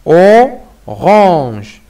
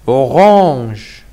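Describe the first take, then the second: First: "orange" as "o... range", long first sound; split into syllables. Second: Said in the usual way. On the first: Shown as a demonstration. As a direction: hold "o", pause, then say "range". (« orange » décomposé en syllabes : « o… range ») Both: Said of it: "il faut décomposer le mot en syllabes".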